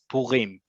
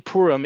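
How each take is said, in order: First: The stress is on the last syllable. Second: The stress is on the first syllable. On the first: It is the modern Hebrew pronunciation. The speaker calls it right. "in modern Hebrew, it's Purim" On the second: The speaker calls it wrong. "if any of you say Purim"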